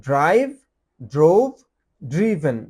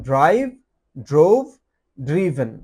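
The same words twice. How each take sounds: No difference in how they are said.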